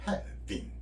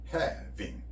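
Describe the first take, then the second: Both takes have the same delivery.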